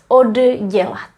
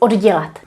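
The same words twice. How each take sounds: First: The word is said slowly and carefully. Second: The word is said at normal speed.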